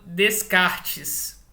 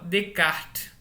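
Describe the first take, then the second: First: The S sounds in the name are pronounced. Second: The S sounds in the name are silent. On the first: The speaker calls it wrong. "não se fala Descartes" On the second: The speaker calls it right. "o S é mudo, tanto da primeira sílaba, tanto quanto da última"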